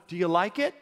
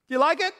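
First: Said in the usual way. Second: Pitched up high, eager question; bright eager repeat of the question; excited. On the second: Shown as a demonstration. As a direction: ask it with real enthusiasm. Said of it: "You enthused about it?".

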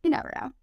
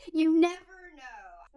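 First: Said in the usual way. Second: Slow, high YOU NEVER KNOW gliding down; drawn-out. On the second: Real, not acted. Repeats it drawn out for effect.

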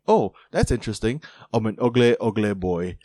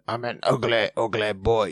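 First: Put-on a light, half-hearted stab at an English footballer's accent; Jamie Tartt accent. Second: Put-on turns the English accent into a little goblin. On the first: Podcaster imitating a TV character's English accent to his cohost, lightly done. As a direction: tries out the accent on "ugly boy", barely shifting his own voice. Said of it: "a cool accent like Jamie Tartt's accent". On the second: Host showing his cohost how he voices TV characters, as a goblin. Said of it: "maybe he's like a goblin".

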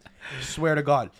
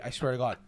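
First: Each word of "I swear to God" said slowly and hard; slow emphatic oath. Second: Said in the usual way. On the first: Real, not acted. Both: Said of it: "I swear to Christ".

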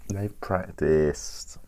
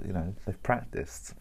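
First: They've practiced stretched slow and louder; slow emphatic repeat. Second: Said in the usual way. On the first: Real, not acted. Telling viewers the tasters really have practiced, slow and emphatic. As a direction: lean on They've practiced, drawn out.

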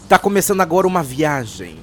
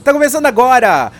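First: Said in the usual way. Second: Loud announcer. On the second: Acted.

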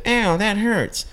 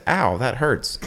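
First: High, drawn-out mocking whine; mocking echo. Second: Said in the usual way. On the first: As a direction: mimic the complaint slowly, way up high. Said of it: "You mocked me and said". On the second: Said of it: "and I said".

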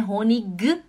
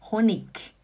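First: Honig ending in a hard g, the mistake; wrong German Honig with g. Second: Honig ending in a clear k; right Honig. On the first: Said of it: "não é Honig". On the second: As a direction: end Honig on a k sound. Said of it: "fala K". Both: Shown as a demonstration.

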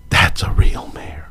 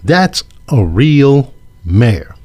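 First: Whispered under the breath, mocking; a hushed, knowing whisper of the quote; sarcastic whisper. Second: Said in the usual way. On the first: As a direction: breathe the words like a sly aside.

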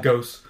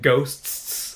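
First: GHOSTS said as "ghos", with no t; "ghosts" pronounced like "gohss"; dropped T. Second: GHOSTS slowed down with every final consonant, t and s, sounded; "ghosts" with a laboured, drawn-out -sts ending; slow, careful pronunciation. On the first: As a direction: leave the t out of "ghosts", ending on a simple s. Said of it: "'cause if not, it's like". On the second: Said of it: "you have to, like, say it slow". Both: Shown as a demonstration.

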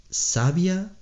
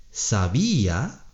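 First: "sabia" said SA-bia, two syllables, stress on the first; "sabia" as SA-bia, the adjective meaning wise. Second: "sabía" said sa-BÍ-a, three syllables, stress on the í; "sabía" as sa-BÍ-a, the verb form meaning knew. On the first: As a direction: put the weight on the SA of "sabia", the i gliding into the a. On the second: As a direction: lean on the í of "sabía" so it stands as its own syllable. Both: Shown as a demonstration. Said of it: "con un acento en la I".

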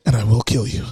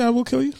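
First: Very low, deliberate movie-hero threat; hammed-up deep, menacing vow; Liam Neeson in Taken. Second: Said in the usual way. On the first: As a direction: drop the voice right down and threaten like an action hero. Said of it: "Did he say, "I will kill you"?".

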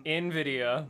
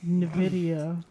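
First: "Nvidia" starting with "in"; pronunciation correction. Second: "Nvidia" starting with "nuh"; alternative pronunciation. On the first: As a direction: say "Nvidia" as in-VID-ee-uh. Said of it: "adding an extra, like, syllable to it". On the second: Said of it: "I like the way Nvidia sounds". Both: Shown as a demonstration.

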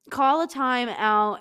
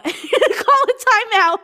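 First: Slow reading. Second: High, slow, laughing; laughing repeat. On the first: Shown as a demonstration. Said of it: "reads line slowly". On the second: Real, not acted. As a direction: burst out laughing on it. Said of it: "repeats laughing".

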